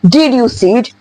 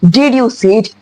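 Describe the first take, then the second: First: The D and Y sounds stay separate. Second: The D and Y sounds stay separate.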